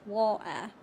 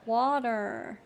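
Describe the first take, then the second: First: It is said in a British accent, without the T. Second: It is said in an American accent. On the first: "in my dialect... We don't pronounce the T where I'm from" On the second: "in American it would be something like water"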